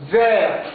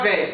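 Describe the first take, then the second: First: Vers with the r clearly rolled at the end; correct vers. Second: Vers said as vɛ with the r swallowed; wrong vers. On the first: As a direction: say vers as vɛʁ, ending on the r. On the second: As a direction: drop the r from vers and say vɛ. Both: Shown as a demonstration. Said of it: "pas vers".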